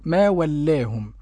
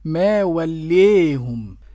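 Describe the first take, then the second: First: The long vowel stays fully open as 'a'. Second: The long vowel leans strongly toward 'e'. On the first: "الفتح كما نقرأ ما ولاهم" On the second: "والإمالة الكبرى تكون هكذا ما وليهم"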